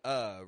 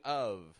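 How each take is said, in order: First: The word is reduced to a bare schwa. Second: The word is said in full with a V sound. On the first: The speaker calls it right. "We're using a" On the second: The speaker calls it wrong. "We're not using of"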